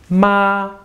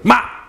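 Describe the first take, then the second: First: The pitch stays high and level. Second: The syllable is yelled out short and sharp. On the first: "your voice is high and steady, just a straight line" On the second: "just yell out a word sharply"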